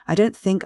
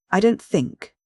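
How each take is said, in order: First: Said in the usual way. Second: DON'T THINK neatly emphasised, pitched higher; nicely pointed stress on "don't think". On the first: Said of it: "emphasis on those two words". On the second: A narrator's reading. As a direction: set off "don't think" with precise, raised stress. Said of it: "very nice and neat emphasis on those two words".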